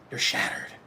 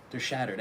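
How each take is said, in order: First: A hammed-up whispered lament; mock whisper. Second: Said in the usual way. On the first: Reader mocking the rejected coworker, whispered. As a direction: breathe it like tragic gossip.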